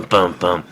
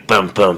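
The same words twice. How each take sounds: First: A lower "bum, bum" at normal volume mimicking dad; the second "bum, bum" trailing off as dad's mumbled ranting; imitating dad's noise. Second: Imitating dad's noise. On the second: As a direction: punch out "bum, bum" like dad's muffled shouting. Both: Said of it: "my dad, he talks like this".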